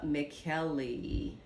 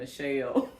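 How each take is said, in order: First: The name sounds like McKelly. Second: The name sounds like Michelle. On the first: The speaker calls it right. "that's how I hear a lot of people pronounce it" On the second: The speaker calls it wrong. "I was saying Michelle"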